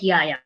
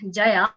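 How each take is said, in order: First: The name begins with a Y sound. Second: The name begins with a J sound. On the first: This is how German speakers said the name. "but Y" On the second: This is the usual pronunciation of the name. "pronounce the letter J as J"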